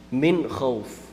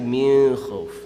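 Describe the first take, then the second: First: The n sound is pronounced clearly before kh. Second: The n sound is hidden and nasalized before kh. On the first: The speaker calls it right. "It's idhar" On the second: The speaker calls it wrong. "that's a very common mistake"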